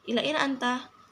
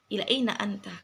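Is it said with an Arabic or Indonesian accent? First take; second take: Indonesian; Arabic. First: It is said with an everyday Indonesian accent. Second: It is said with an Arabic accent.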